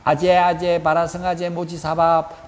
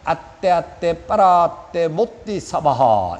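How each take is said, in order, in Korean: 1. 이 주문은 j 소리로 외웁니다. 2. 이 주문은 t 소리로 외웁니다. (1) "틀렸어요" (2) "주문은 발음이 정확해야 효력이 있어요"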